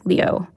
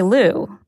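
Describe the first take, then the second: First: The name is said with a glide, like 'Leo'. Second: The name is said as a single 'Lu' syllable. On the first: This is the original Chinese form of the name. The speaker calls it right. "How you really pronounce it is like Leo" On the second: This is the anglicized form of the name. The speaker calls it wrong. "That's the anglicized version"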